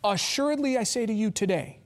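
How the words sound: The pause comes after the word today.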